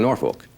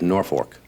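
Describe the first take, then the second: First: It is said like 'Norfuk', reduced. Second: It is said like 'North Fork', two clear parts. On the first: The speaker calls it wrong. "I've been saying Norfolk, like Norfolk, Virginia" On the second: The speaker calls it right. "but it's Norfolk, because it was named after the North Fork River"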